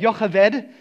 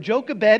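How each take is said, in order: First: The name is said with a Hebrew accent. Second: The name is said with an English accent.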